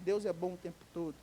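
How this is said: It is said like a routine slogan.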